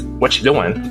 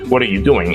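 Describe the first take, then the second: First: The words are run together, dropping one. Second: Every word is said fully and separately. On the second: "We definitely don't say words like"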